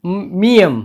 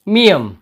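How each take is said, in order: First: मियम announced with a falling close; letter name miyam. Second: मियम repeated a little louder, falling; letter name repeated. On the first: Teacher introducing the next letter, clear. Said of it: "इसके बाद है". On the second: Teacher repeating the letter name, deliberate. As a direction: say मियम again for the class. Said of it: "इस अक्षर का नाम है". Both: Shown as a demonstration.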